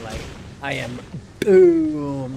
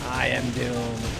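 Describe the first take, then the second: First: The D in Doom is hit hard and heavy. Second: The D in Doom is said lightly and plainly. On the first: The line is delivered with overblown drama. The speaker calls it wrong. "like hard D" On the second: The line is delivered casually. The speaker calls it right. "You just said Doom"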